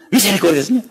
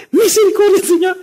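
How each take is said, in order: First: Said in the usual way. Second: High frantic cry for mercy; panicked plea. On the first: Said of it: "esa mujer se tiró al suelo". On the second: Retold or imitated. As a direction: shriek the prayer like a terrified woman. Mother cries out during earthquake.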